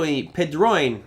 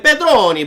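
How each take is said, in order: First: Said in the usual way. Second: Hammed-up Italian accent, higher and louder. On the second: Shown as a demonstration. Host playfully saying a viewer's name in an Italian accent. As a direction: roll out Pedroni like an Italian, much higher and louder. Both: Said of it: "I was almost threw a nice Italian accent on it".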